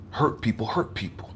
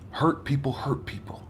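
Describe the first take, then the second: First: Said in the usual way. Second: Hushed whisper of the line; soft unvoiced repeat. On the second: Shown as a demonstration. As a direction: breathe it out as a whisper.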